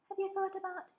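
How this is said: It is said in a high-pitched voice. "having a high-pitched female voice"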